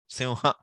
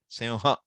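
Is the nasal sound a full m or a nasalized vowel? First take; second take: nasalized vowel; nasalized vowel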